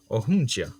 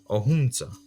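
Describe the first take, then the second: First: It has a ja-like cluster, Akwesasne style. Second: It has a za-like cluster, Kahnawake style.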